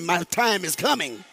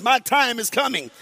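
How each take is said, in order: First: Said in the usual way. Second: Said with confidence, a bit louder. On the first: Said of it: "No, say it with confidence". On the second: Shown as a demonstration. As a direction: declare it like you mean it. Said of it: "say it with confidence".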